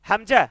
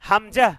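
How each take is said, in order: The two takes are said the same way.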